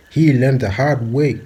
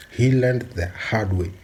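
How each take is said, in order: First: Louder and higher, slow and pointed; declared loud like a final verdict; loud emphatic warning. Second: Said in the usual way. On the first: Real, not acted. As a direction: hammer the warning home, slowly. Warning about [name].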